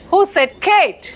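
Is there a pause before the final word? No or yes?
yes. There is a pause before the last word. Kate is asking who said something. "So what is Kate asking? Who?"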